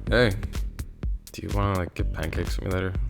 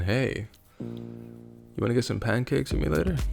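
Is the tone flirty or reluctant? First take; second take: reluctant; flirty. First: It sounds reluctant and obligated. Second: It sounds flirty and suggestive.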